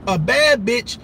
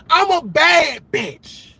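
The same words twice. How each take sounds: First: Said in the usual way. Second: Mock brag. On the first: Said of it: "repeated deadpan after the quote". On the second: Mocking quote, then repeated flat.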